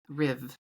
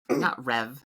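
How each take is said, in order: First: The name is said with an 'ih' vowel. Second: The name is said with an 'eh' vowel. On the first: The speaker calls it right. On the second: The speaker calls it wrong.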